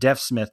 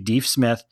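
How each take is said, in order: First: The first word has a short 'eh' vowel. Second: The first word has a long 'ee' vowel. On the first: This is how the name is said today. "we may say it Deaf Smith today" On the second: This is how the name was originally said. "but it was actually Deef Smith"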